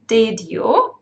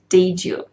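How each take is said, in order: First: The d and y are said as separate sounds. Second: The d and y merge into a j sound. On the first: "and did you" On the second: "which becomes"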